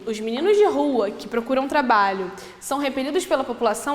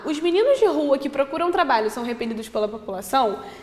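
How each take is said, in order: First: It is said with pauses around the clause. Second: It is said without pauses around the clause.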